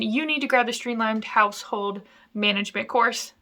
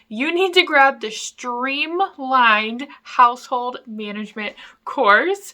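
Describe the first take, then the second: First: The sentence is spoken quickly. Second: The sentence is spoken more slowly. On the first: The speaker calls it wrong. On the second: The speaker calls it right.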